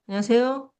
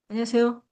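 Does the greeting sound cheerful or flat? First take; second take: flat; flat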